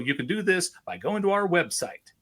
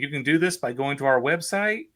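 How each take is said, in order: First: The voice falls at the end. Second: The voice rises at the end. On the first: The speaker calls it right. "Can you end on a down note?" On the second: The speaker calls it wrong. "they would say"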